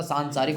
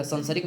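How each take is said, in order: First: सांसारिक with long nasal first a, saan-sa-rik; correct form. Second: संसारिक with short first a, sansarik; wrong spelling said aloud; wrong form. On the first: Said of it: "सांसारिक होता है". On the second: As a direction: say संसारिक as san-sa-rik, the wrong way. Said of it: "संसारिक नहीं होता". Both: Shown as a demonstration.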